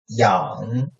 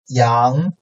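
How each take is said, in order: First: The pitch dips low, then rises slightly. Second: The pitch rises from mid to high.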